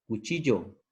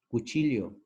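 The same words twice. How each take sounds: First: The ll sounds the same as a y. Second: The ll is a distinct lateral sound. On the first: This is the coastal way of saying it. "Ellos no dicen cuchillo" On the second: This is the Andean highland way of saying it. "ellos dicen cuchillo"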